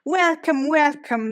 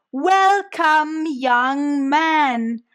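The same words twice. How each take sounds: First: Said in the usual way. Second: Put-on drawn-out, loud Welcome, young man; a louder Welcome, young man; almost shouting. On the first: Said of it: "now much louder". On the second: A narrator's reading. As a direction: shout it slowly to a foreigner. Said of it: "now much louder, almost shouting".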